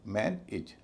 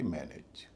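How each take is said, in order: First: मैन इज in two parts, MAN then light "ij"; correct reduced ending. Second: मैनेज with a full "ayj" ending; unreduced second syllable. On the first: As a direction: split मैन इज, full first syllable, weak short "i". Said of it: "एज ना होके इज होगा". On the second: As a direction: say मैनेज as "man-AYJ", second vowel not weakened. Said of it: "न कि मैनेज". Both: Shown as a demonstration.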